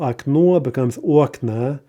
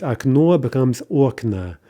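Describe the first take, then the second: First: Окно stressed on the last syllable, окна on the first; stress shift. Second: Окно with stress on the end, окна with stress on the start; stress shift. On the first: Teacher demonstrating the stress shift for students. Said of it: "note the stress shifts there". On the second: Teacher modeling neuter plural stress again. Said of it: "So let's look at these". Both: Shown as a demonstration.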